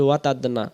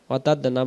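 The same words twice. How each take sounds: The two takes are said the same way.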